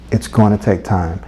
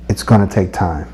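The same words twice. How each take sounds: The two takes are said the same way.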